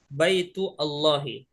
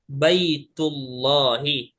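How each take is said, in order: First: A break and vowel onset start the second word. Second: The words run together with no break. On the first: The speaker calls it wrong. "Nggak boleh kita baca Baitu Allahi. Nah, ini keliru" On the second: The speaker calls it right. "langsung kita baca Baitullahi"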